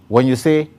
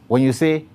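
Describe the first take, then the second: No difference in how they are said.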